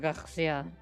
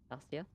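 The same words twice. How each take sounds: First: The R sound is pressed hard and exaggerated. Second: The R sound is soft and not exaggerated. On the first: The speaker calls it wrong. "I pressed the R a bit too much" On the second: The speaker calls it right. "sounds about right"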